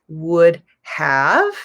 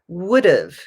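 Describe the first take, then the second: First: Both words are said fully and separately. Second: The words are reduced and run together. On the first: The speaker calls it wrong. "We don't say" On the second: The speaker calls it right. "We would say"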